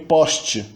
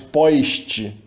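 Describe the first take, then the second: First: The first vowel is a plain single vowel. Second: The first vowel glides into an added i sound. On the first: This is the typical pronunciation. "quando a sílaba não é final, tipicamente não há ditongização" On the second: This is a regional pronunciation heard in Rio de Janeiro. "Só no Rio de Janeiro que às vezes tem essa ditongização"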